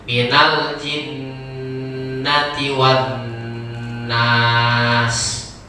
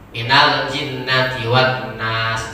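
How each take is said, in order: First: The nasal sound is held fully and longer. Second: The nasal sound is held only briefly. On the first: "kalau kita baca lebih sempurna kan lebih bagus" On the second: "gunnahnya kurang sedikit, ya nggak masalah lah"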